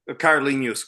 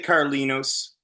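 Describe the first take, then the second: First: The middle consonant is a palatal 'ny' sound. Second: The middle consonant is a plain 'n' sound. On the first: "the way you're saying it, obviously is the correct pronunciation" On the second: "they'd say Carlinos. They probably wouldn't Nia part"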